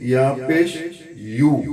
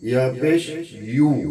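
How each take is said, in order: Both takes have the same delivery.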